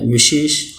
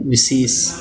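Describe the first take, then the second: First: विशेष with the sh sounds, vi-shesh; correct spelling. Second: विशेष said as visis, plain s sounds; wrong spelling. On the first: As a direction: say विशेष with sh in both. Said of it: "शुद्ध शब्द आता है". (सही उच्चारण: विशेष, श और ष साफ़) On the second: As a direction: flatten विशेष to vi-sis. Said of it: "अशुद्ध शब्द आता है". (गलत रूप: विशेष को विसिस बोलना) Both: Shown as a demonstration.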